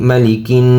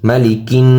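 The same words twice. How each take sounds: No difference in how they are said.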